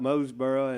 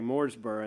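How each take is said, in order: First: The first syllable has no r sound. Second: The first syllable has a clear r sound. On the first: The speaker is from here. The speaker calls it right. "I've learned about Moseboro" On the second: The speaker is not from here. The speaker calls it wrong. "I used to say Mooresboro"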